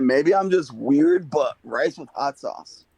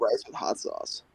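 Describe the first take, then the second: First: "Maybe I'm just weird, but rice with hot sauce" repeated slowly and clearly. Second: Softly mumbled, half swallowed "but rice with hot sauce". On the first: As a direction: repeat it slower so everyone catches it. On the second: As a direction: say "but rice with hot sauce" under your breath, almost unheard. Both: Real, not acted. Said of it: "What'd you say?".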